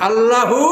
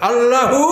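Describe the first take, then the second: The two takes are said the same way.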